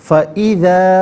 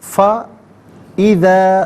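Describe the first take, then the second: First: The two parts are said as one joined word. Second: The two parts are said with a break between. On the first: "फिर मिलाकर पढ़ते हैं" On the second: "हर कलमे को अलहदा"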